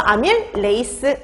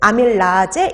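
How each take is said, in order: First: The word ends with an English-style 'ace' sound. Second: The word ends with a German-style 'aze' sound. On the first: This is the current way the name is said. "영어식으로 레이스 이런 식으로 끝나게" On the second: This is the older way the name was said. "독일식 발음이었거든요... 아제로 끝나는 거예요"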